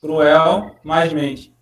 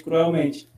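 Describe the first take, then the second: First: Cruel mais mente, each part drawn out very slowly; slow, split into parts. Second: Said in the usual way. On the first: Shown as a demonstration. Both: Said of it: "Sufixo mente, cruelmente".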